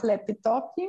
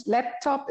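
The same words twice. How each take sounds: First: Laptop as "lepitopi", with added i sounds; Brazilian pronunciation. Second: Laptop said the usual way, two syllables; standard pronunciation. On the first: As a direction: slip an i after each p in Laptop. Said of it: "setzen wir sehr gern überall ein". (Laptop brasilianisch mit eingefügtem i) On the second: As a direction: say Laptop with no extra vowels. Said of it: "einfach Laptop". (Laptop normal ausgesprochen) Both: Shown as a demonstration.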